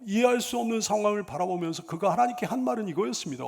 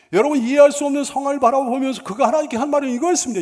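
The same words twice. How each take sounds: First: Said in the usual way. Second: Higher, louder and fast, driving it home; preaching louder. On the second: Shown as a demonstration. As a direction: repeat it with full preaching force. Sermon line repeated with force. (힘주어 크게 빠르게 다시 외치듯)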